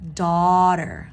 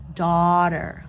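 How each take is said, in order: First: The first vowel sounds like aw. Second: The first vowel sounds like aw.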